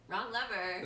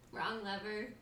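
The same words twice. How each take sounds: First: It is said in an impression of Yzma. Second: It is said in the speaker's normal voice.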